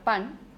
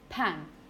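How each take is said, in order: First: The p is said without a puff of air. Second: The p is said with a puff of air. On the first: "he ido a comprar pan" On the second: "I've got a new p- pan"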